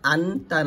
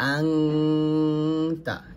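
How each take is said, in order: First: A plain n sound comes before the t. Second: A nasal ng sound comes before the t. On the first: The speaker calls it wrong. "আনতা না বলে" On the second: The speaker calls it right. "বলবো আংতা"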